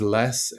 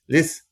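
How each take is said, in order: First: The vowel is a plain 'eh' sound. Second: The vowel is an 'ih' sound. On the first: "His friend's name is Les" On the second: "most of the time it's Liz"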